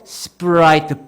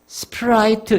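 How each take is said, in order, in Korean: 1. p는 힘이 들어간 경음이에요. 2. p는 숨이 나오는 격음이에요. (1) "뿌뿌뿌 발음으로 해야 됩니다" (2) "이렇게 발음하지 말고요"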